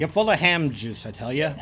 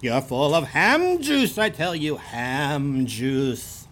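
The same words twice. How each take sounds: First: Fargo accent. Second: Exaggerated Fargo accent. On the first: Insulting co-host like a Fargo local, Fargo accent. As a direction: toss off a Fargo-accented jibe. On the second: Repeating the insult after co-host agrees, exaggerated Fargo accent. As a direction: stretch it out as a hammed-up Fargo local. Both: Shown as a demonstration. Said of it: "That's how they talk in Fargo".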